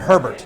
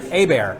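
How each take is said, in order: First: The name is given a plain English pronunciation. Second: The name is given a French-style pronunciation. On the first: "So you pronounce it Herbert" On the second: "it's uh, French pronunciation"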